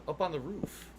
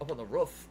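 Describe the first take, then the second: First: Roof with a long oo, like "roo-f". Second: Roof with a short oo, like "book"; not up on the "roof" with the oo of "moon" but of "good". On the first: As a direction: say "roof" rhyming with "hoof" said long, as in "food". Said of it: "everyone used to say roof where I came from". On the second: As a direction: say "roof" with the vowel of "foot". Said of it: "Not, uh". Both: Shown as a demonstration.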